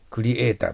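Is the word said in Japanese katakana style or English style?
Japanese. It is said with Japanese katakana-style sounds. The speaker calls it wrong.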